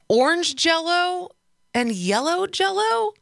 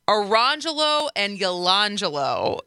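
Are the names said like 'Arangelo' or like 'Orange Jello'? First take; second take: Orange Jello; Arangelo. First: The names sound like the words orange and jello. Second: The names are run together as single flowing words. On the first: The names are read as they are spelled. The speaker calls it wrong. "she tentatively and like, you know, she just kind of like graciously said" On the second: This is how the family says the names. The speaker calls it right. "And the mom stood up and said"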